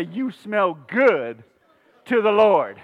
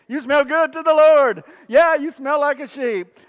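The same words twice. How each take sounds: First: Slow, deliberate delivery with a pause; feed the line to the congregation; slow modeled line. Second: High, loud, jokey exclamation; hammed-up neighborly compliment; playful mock greeting. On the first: Shown as a demonstration. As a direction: draw out "good", pause before "to the Lord". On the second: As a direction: call it out high and teasing. Playfully acts out neighbors' exchange.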